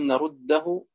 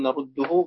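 First: The d sounds merge, followed by an a vowel. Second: The d sounds merge, followed by a u vowel. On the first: "بالإدغام الفتح" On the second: "بالإدغام الضم"

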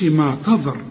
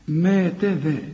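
First: The consonant after 'ta' is emphatic and heavy. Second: The consonant after 'ta' is plain and light. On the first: The speaker calls it wrong. "ما نقولش ما تظر" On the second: The speaker calls it right. "شوف رقق كل الحروف دي لكن الراء هي المفخمة"

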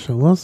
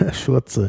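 First: The name is said in standard French pronunciation. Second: The name is said in a distorted pronunciation. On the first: The speaker calls it right. "der Chaours" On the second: The speaker calls it wrong. "in ihre Version des Französischen übersetzt"

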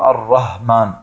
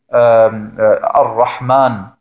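First: The h is a plain, light sound. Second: The h is a strong throaty sound. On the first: The speaker calls it wrong. "sondern nur Ar-Rahman, das H nicht sprechen kann" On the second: The speaker calls it right. "wenn einer zum Beispiel Ar-Rahman nicht sagen kann"

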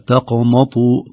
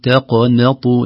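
First: All the consonants in the word sound heavy. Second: Heavy and light consonants alternate through the word. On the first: The speaker calls it wrong. "لو لم ننتبه قد تخرج كلها تقنطوا، تخرج كلها مفخمة" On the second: The speaker calls it right. "هنا التاء مرقق، تق ثم القاف مفخم ثم النون مرقق ثم الطاء"

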